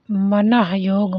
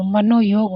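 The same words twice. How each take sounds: First: Slow, deliberate मनाह योग, each syllable drawn out; wrong form read out. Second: मनोयोग said smoothly as one word, mano-yog; correct form. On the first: Teacher reading the misspelt option aloud slowly. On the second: Teacher correcting students with the proper form. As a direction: give the right मनोयोग as one clean word. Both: Shown as a demonstration. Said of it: "मनोयोग होना चाहिए".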